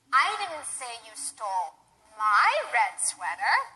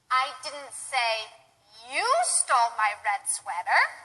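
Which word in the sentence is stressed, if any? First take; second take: my; you. First: The word "my" carries the stress. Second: The word "you" carries the stress. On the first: The sweater stolen belonged to someone else. "perhaps I said you stole someone else's red sweater" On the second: Someone else stole it. "perhaps I said somebody else stole it, and I wasn't blaming you"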